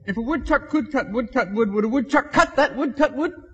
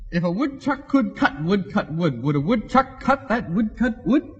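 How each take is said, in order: First: It is said at a faster, normal pace. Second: It is said at a slower pace.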